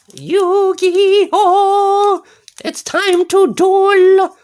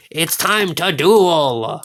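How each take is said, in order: First: Much higher, slowed-down duel cry. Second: Slow duel cry. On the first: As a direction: squeak it out high and drawn-out like a hype call. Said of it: "Why am I speaking such a high voice?". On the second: Repeats duel catchphrase, lower. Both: Pretend.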